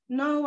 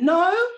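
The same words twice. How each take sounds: First: It is said gently, with a smile. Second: It is said loudly, with a raised voice. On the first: "Sometimes I'll do it with a smile" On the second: "Sometimes I'll raise my voice a bit"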